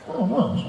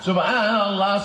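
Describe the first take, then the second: First: It is rushed and blurred together quickly. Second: It is said at a calm, measured pace. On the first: The speaker calls it wrong. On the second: The speaker calls it right.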